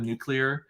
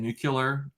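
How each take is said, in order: First: It is said with the standard clear ending, nuclear. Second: It is said with an extra syllable, like nucular. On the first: This is the standard way others expect. The speaker calls it right. "Instead of nuclear" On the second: This is the regional way the speaker grew up saying it. The speaker calls it wrong. "that's how I used to say it too"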